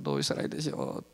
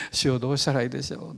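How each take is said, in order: First: Much lower, softer trailing repeat; fading prayer. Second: Said in the usual way. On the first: Retold or imitated. Preacher repeating his plea to God, fading softly. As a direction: let the plea fade away. Praying in patrol car.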